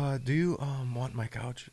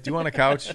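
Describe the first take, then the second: First: It is said in a halting put-on voice. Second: It is said plainly, without a put-on voice.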